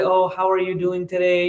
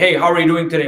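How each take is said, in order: First: It is said in a soft, sweet tone. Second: It is said in a harsh tone.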